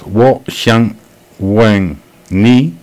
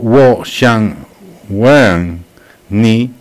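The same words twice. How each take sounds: First: The word wen has a falling tone. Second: The word wen rises and then falls. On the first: I want to ask you. "en el que wen se habla con un tono descendente" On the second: I want to kiss you. "en el que wen sube y baja"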